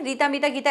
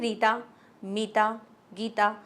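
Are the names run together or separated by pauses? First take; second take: run together; pauses. First: The names are run together without pauses. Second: There is a short pause after each name. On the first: The speaker calls it wrong. "ऐसे नहीं बोलते ना" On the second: The speaker calls it right. "इस तरह से आप थोड़ा हल्का सा पॉज लेते हो"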